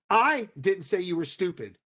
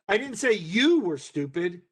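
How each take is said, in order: First: The stress falls on the word I. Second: The stress falls on the word you. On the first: Someone else said it. "Your brother did" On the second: It was said about a different person. "I said your brother was"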